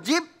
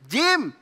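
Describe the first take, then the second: First: The word ends with a b sound. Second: The word ends with an m sound. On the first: The speaker calls it wrong. "Dia ngomong alif ba ta sa jib begitu" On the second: The speaker calls it right. "Kok jib? Jim"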